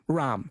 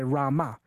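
First: It ends without a final vowel, as in the north. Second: It ends with a final vowel, as in the south.

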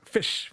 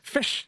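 First: It is said with an Indian accent. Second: It is said with a New Zealand accent.

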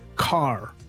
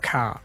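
First: Said in an American accent, strong R. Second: Said in an Australian or New Zealand accent, no R.

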